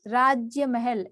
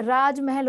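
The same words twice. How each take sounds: First: राज्य महल with "jya" before महल; wrong form. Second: राजमहल with "raaj" running into महल; no "ya" after राज in राजमहल; correct form. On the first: Teacher citing the error, राज्य महल with "raajya". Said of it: "ऐसा नहीं होता". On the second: Teacher giving the right word, राजमहल with plain "raaj". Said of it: "राजमहल होता है". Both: Shown as a demonstration.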